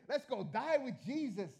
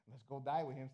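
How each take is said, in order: First: It sounds sincere and enthusiastic. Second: It sounds sarcastic and grudging.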